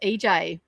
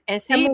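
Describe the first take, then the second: First: The name sounds like 'E J'. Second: The name sounds like 'Essie'. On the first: The speaker calls it right. "but it's actually pronounced E J" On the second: The speaker calls it wrong. "I would have said Essie"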